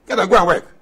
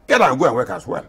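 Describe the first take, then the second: First: Higher and louder, pushing the command; emphatic loud repeat. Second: Said in the usual way. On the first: Real, not acted. Elder ordering idle youth to work, loud and emphatic. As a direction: drive the order home with force.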